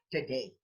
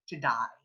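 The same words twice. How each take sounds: First: "today" ending in a clear AY; long AY at the end of today; usual pronunciation. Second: "to die", today with AY turned to EYE; Australian EYE vowel ending "to die"; Australian pronunciation. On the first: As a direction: say today as "tuh-DAY". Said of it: "we Filipinos usually say". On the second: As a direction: say today Aussie-style, as "to die". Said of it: "but in Australia". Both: Shown as a demonstration.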